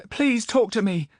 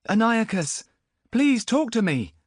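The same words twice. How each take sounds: First: Put-on much higher, louder young voice; pleading boy. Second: Put-on much higher, louder, slow young voice; pleading boy. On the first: Boy begs Zidantus, high pleading voice. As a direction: beg to be heard. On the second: Boy begs Antiochus, high pleading voice. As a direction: beg him to answer.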